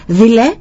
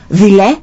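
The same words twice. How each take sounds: First: Higher imitated echo of the insult; echo coming back. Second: Retold boy's louder, indignant call; angry shout. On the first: Mountains return the boy's angry insult, echoing. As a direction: bounce the word back like an echo. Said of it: "ξαναεπιστρέφει πίσω η φωνή". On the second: Little boy insults the unknown voice, angry shout. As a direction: fling it out as an annoyed child. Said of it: "φωνάζει ο μικρός θυμωμένος".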